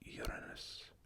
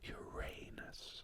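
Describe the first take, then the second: First: The stress is spread evenly across syllables. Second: The stress falls on the second syllable. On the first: This is the Greek way of saying it. "I think there are even stresses for Greek" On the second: This is the English way of saying it. "put an additional stress on the second syllable of a word"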